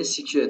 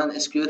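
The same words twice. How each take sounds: First: سی کیو ال said as the word "sequel"; سی کیو ال pronounced "sequel" as in foreign tutorials; English way of saying SQL. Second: اس کیو ال spelled out letter by letter as "es-kiu-el"; Iranian way of saying SQL. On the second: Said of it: "اشتباهاً اس کیو ال تلفظش کردن". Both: Shown as a demonstration.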